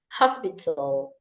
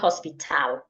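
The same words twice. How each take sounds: First: The word starts with a clear H sound. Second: The word starts without an H sound. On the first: The speaker calls it right. "do not remove H from words that have H" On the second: The speaker calls it wrong. "not hospital"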